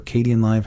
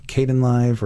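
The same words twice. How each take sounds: First: Kdenlive said as "kay-dee-en-live"; preferred pronunciation. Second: Kdenlive said as "kay-den-live"; pronunciation variant. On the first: Host offering the other way to say it, Kdenlive as kay-dee-en-live. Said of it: "I say Kdenlive". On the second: Host offering one way to say the editor's name, Kdenlive as kay-den-live. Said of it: "however you say it". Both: Shown as a demonstration.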